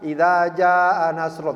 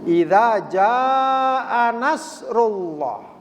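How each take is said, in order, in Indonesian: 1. Vokal pada jaa dibaca pendek. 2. Vokal pada jaa dibaca panjang.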